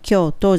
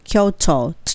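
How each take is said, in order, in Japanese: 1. 日本語の発音で言っています。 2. 英語の発音で言っています。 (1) "英語的には京都じゃなくて" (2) "Kyoto の音ですよね"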